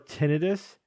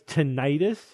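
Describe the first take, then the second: First: The ending does not sound like itis. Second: The ending sounds like itis. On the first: It avoids suggesting an inflammation. The speaker calls it right. "The reason why I prefer tinnitus" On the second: It suggests an inflammation, like other itis words. The speaker calls it wrong. "tinnitus sounds like T I N I T I S"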